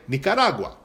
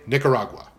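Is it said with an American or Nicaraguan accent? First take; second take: Nicaraguan; American. First: It is said in a Nicaraguan accent. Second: It is said in an American accent.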